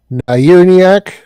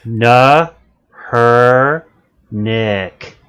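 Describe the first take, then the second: First: Nahirniak? said as "nai-rniak", slow and hesitant; wrong try at a name. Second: Nah, her, Nick said in three separate loud beats, NAH and HER louder; correct name syllable by syllable. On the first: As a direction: guess the name Nahirniak? slowly, unsure. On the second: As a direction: spell out Nah, her, Nick with pauses between. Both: Shown as a demonstration.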